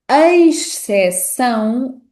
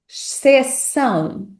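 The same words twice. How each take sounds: First: It begins with an 'eis'-like diphthong. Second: It begins with a plain single vowel. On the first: "A pronúncia eis" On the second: "ou simplesmente a pronúncia X"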